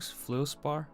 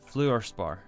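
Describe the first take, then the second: First: The first syllable has no R sound. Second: The first syllable has an R sound. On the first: The speaker calls it wrong. "am I saying this wrong?" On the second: The speaker calls it right. "I didn't realize it had an extra R in there"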